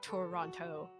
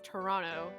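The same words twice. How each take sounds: First: The word is said fully, sounding every letter. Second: The word is said in a shortened, reduced form. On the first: This is how outsiders read it from the spelling. "like how it's actually spelled" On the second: This is how local people say it. "if you talk to anyone from from Toronto, they're going to pronounce it as Toronto"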